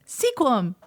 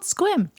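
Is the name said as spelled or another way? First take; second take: as spelled; another way. First: The name is pronounced following its spelling. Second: The name is pronounced unlike its spelling. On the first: The speaker calls it wrong. "But that's not how you say it" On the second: The speaker calls it right. "It's called Sequim"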